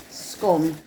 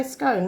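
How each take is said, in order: First: "scone" rhyming with "gone"; "scone" with a short o. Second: "scone" rhyming with "bone"; "scone" with a long o. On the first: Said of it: "I say". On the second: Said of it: "but some people say". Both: Shown as a demonstration.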